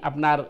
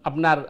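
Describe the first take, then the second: Both takes have the same delivery.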